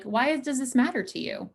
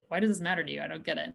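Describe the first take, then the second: First: A gently raised, curious "Why does this matter to you?"; sincere why question. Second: A lower, softer, dismissive "Why does this matter to you? I don't get it.". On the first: Therapist showing couples a sincere why question, gently curious. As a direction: ask it kindly, as a sincere question. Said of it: "even as sincere as it can be". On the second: Therapist demoing a why question that puts a partner on the defensive, dismissive. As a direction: let it sound like a brush-off. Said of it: "sometimes it's the tone". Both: Shown as a demonstration.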